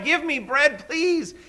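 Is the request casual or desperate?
desperate. The request sounds urgent and desperate.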